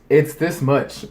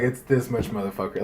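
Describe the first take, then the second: First: Said in the usual way. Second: Mock tough aside. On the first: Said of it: "but basically, she's like". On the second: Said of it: "she didn't say that".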